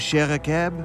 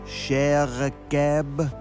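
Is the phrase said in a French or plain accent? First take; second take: plain; French. First: It is said in a plain accent. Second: It is said in a French accent.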